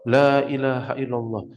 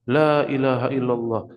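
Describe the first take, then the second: No difference in how they are said.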